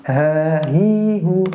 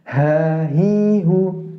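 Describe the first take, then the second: Both takes have the same delivery.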